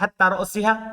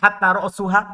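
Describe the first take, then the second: First: The noun ends in an 'i' vowel before -ha. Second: The noun ends in a 'u' vowel before -ha. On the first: The word is governed by hatta as a preposition. "bisa dibaca jar" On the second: The word starts a new clause as its subject. "bisa dibaca rofa ... Sebagai mubtada"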